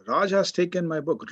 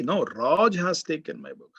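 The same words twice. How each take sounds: First: Said in the usual way. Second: Raj hit hard and falling, correcting; stress on Raj. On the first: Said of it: "I am highlighting this". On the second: Shown as a demonstration. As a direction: punch Raj, as if not Ravi. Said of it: "I am trying to emphasize this".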